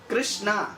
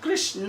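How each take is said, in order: First: The name ends with a long aa sound. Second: The name ends with a short a sound. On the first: It becomes a female name. "आ का मात्रा लगा दिया तो feminine हो जाता है" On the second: It names the male deity. "Actually वो कृष्ण है"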